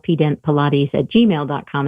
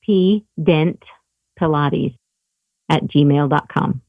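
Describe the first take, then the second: First: It is said fast. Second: It is said more slowly.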